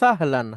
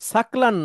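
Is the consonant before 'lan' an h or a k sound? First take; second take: h sound; k sound. First: The consonant before 'lan' is an h sound. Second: The consonant before 'lan' is a k sound. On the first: The speaker calls it right. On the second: The speaker calls it wrong. "সাকলান না"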